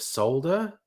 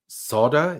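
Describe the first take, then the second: First: It is said in a British way. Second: It is said in an American way. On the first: The speaker calls it right. "instead of solder" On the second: The speaker calls it wrong. "solder instead of"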